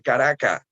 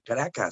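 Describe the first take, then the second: First: The final s is aspirated like an h. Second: The final s is fully pronounced. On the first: The speaker calls it wrong. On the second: The speaker calls it right.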